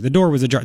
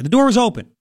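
First: Said in the usual way. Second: Natural spoken wording. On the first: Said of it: "Do you normally say the words ajar". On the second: Shown as a demonstration. Host showing how people really talk, plainly. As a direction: open said high and plain. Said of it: "you write to the ear".

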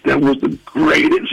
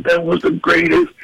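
First: Awed excitement. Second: Higher awed excitement. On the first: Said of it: "he's shaking beyond". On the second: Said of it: "He's like". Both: Retold or imitated.

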